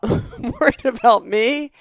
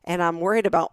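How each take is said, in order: First: Laughing through the words, slowed; amused laugh at herself. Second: Said in the usual way. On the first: Real, not acted. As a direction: giggle while admitting the worry. Laughs through own worry.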